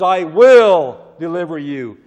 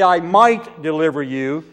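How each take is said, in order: First: "will" hit hard and much louder, falling firmly; stress on WILL. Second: Said in the usual way. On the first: Shown as a demonstration. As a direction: lean your whole weight on "will". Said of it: "He says". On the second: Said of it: "He doesn't say".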